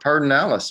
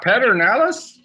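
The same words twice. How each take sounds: First: Sounds differ from the spelling, in a reduced form. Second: Every letter is sounded, just as spelled. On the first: Someone from the region is saying the name. The speaker calls it right. "Who would take P E D and call it" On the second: Someone from outside the region is reading the name. The speaker calls it wrong. "people are going to go"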